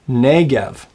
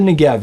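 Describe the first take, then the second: First: The stress is on the first syllable. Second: The stress is on the last syllable. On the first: The speaker calls it right. "it's the Negev" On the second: The speaker calls it wrong. "it's not the Negev"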